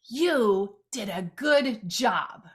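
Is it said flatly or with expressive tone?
expressive. It is said with marked tone and inflection.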